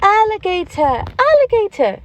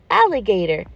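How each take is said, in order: First: Put-on much higher childlike echo of "alligator"; eager child repeating "alligator"; kids repeating. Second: Said in the usual way. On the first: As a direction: squeal it back like a small pupil. Pretend pupils repeat the word. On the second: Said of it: "Can you say alligator?".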